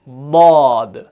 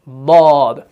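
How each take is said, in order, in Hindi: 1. जीभ का किनारा ऊपर की दाढ़ों को छूता है। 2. जीभ का किनारा ऊपर की दाढ़ों को छूता है।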